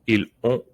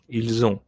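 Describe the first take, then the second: First: The words are said apart without a linking sound. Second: The words are joined with a linking z sound. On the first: It sounds less French. The speaker calls it wrong. "it's not incorrect" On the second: It sounds properly French. The speaker calls it right. "You can hear the elision, la liaison"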